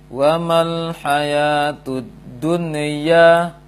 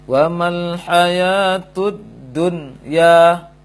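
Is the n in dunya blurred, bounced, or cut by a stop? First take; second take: bounced; cut by stop. First: The n sound bounces with a rebound. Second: A brief breath stop breaks the word. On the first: "Atau dia terpantulkan" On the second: "Dia terputus dan juga saktah dia"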